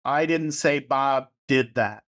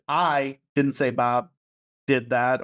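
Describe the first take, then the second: First: Slow, with "didn't" stressed. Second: Slow, with "I" stressed. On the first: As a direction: lean on the word "didn't" and say it slowly. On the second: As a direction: put the weight on "I" at the start, slowly. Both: Shown as a demonstration. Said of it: "emphasize a different word".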